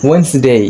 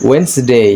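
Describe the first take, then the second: No difference in how they are said.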